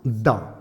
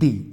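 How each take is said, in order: First: The word ends in a short 'uh' vowel. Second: The word ends in a long 'ee' vowel. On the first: It comes before a consonant. "Here द is pronounce द" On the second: It comes before a vowel. "Here द is pronounce दी"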